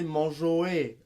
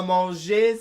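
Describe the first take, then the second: First: Manger dit « manjoué », lentement. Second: Said in the usual way. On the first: Shown as a demonstration. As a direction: finir manger en « oué ». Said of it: "Le son E devient Oé". (« manjoué » à la québécoise) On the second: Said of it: "T'as mangé, c'est mon jouet".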